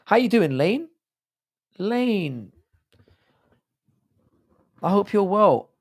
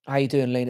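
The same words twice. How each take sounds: First: High-pitched strained greeting; voice going high. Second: Said in the usual way. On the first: Real, not acted. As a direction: voice jumps up high. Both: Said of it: "Why is my voice going like this?".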